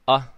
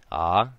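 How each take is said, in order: First: A short vowel with a sharp, abrupt start. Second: A lengthened vowel with a smooth start. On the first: "an okina, right, which is going to create a sharper sound" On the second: "Now with kahako"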